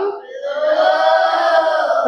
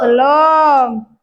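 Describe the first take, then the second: First: Drawn-out chanted no; sung, sing-song chorus answer. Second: Shouted chorus answer. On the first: Children answering teacher in a slow sing-song chant. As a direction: stretch the word out like a class chant. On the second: Children shouting their answer back to the teacher. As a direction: call it out sharply to the teacher. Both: Real, not acted.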